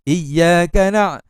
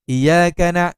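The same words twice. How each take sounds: First: The doubled y sound is held long. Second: The doubled y sound is cut short. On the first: The speaker calls it right. "kena tekan" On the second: The speaker calls it wrong. "dia tak tekan"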